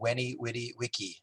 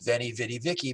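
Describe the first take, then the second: First: It uses the classical Latin pronunciation. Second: It uses the common anglicized pronunciation. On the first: The speaker calls it right. "but it's said in Latin" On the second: The speaker calls it wrong. "it's mispronounced as"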